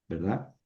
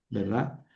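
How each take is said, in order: No difference in how they are said.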